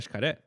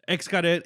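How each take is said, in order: First: The word begins with an 'sh' sound. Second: The word begins without an 'sh' sound. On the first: This is how people said it there. "with like the sh" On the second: This is how the speaker had always said it. "Xcaret is how I've known it for years"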